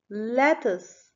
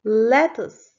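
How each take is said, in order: First: Said in the usual way. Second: Lettuce called out louder, clearly sounded; loud model word. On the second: Shown as a demonstration. Teacher modelling the word for kids, loud. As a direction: call Lettuce out to the class. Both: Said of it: "Let's clap our hands when you hear".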